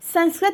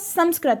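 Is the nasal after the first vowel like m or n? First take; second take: n; m. First: The nasal sound is not a light m. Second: The nasal sound is a light m. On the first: The speaker calls it wrong. "नहीं होता" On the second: The speaker calls it right. "होता है। ये जो अंक का उच्चारण होता है वो इसमें माँ का उच्चारण हल्का निकलता है"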